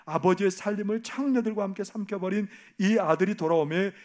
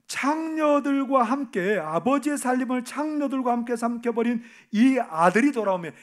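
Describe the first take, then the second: First: Said in the usual way. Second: 창녀들과 stretched out high, loud and slow; bitter emphasis. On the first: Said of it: "이렇게 말하죠". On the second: Shown as a demonstration. Preacher re-quoting the elder son's words, loud and scornful. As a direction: spit out 창녀들과 함께 with contempt. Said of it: "뭐라고 성경은 기록하고 있어요".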